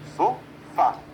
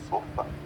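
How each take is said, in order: First: The stress is on the last syllable. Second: The stress is on the first syllable. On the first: The speaker calls it right. "Eu tenho sofá" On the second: The speaker calls it wrong. "e não sofa"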